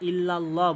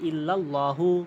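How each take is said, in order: First: The word ends without a final vowel. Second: The word ends with a final 'u' vowel. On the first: The speaker calls it wrong. "লা ইলাহা ইল্লাল্লাহ বললে হবে না" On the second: The speaker calls it right. "বলতে হবে ইল্লাল্লাহু"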